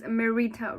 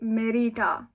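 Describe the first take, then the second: First: The name is said with an anglicized pronunciation. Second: The name is said with its original pronunciation. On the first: This is the form the speaker uses for herself. "my name is Merita, right?" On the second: This is the name's true pronunciation. "phonologically, it's meant to be Merita"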